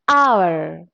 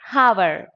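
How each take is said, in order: First: The word begins with no h sound. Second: The word begins with an audible h sound. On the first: The speaker calls it right. "because here H is silent" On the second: The speaker calls it wrong. "You should not say hour. It's wrong"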